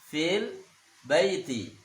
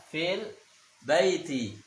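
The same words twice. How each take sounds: Both takes have the same delivery.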